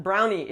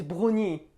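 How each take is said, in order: First: Said in the usual way. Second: French accent. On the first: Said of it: "it's not brownie". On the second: Shown as a demonstration. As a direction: give "brownie" its French pronunciation. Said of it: "because in French".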